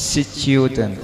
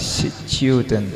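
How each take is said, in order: Both takes have the same delivery.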